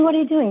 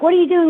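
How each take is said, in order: First: High puppy voice, repeated; the pup asks again, still puzzled; confused puppy. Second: High, puzzled puppy voice; a baffled pup asks what's happening; confused puppy. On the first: Puppy asking its owner again, high and puzzled. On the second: Puppy asking its owner what's going on, high and puzzled. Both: Retold or imitated. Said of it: "at first they're like".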